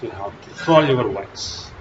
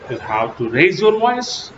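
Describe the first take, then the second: First: "fall your voice" sinking in pitch. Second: "raise your voice" climbing higher to the end; raised voice. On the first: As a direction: let "fall your voice" drop to the end. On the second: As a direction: lift the pitch through "raise your voice". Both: Shown as a demonstration.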